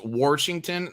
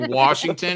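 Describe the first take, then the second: First: It is said in an imitated Missouri accent. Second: It is said in the speaker's ordinary accent. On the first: "my family down in Missouri, when they say Washington, it's Washington" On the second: "when they say Washington"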